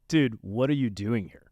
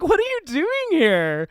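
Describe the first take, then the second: First: It sounds annoyed and irritated at the person. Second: It sounds pleasantly surprised, with a little chuckle.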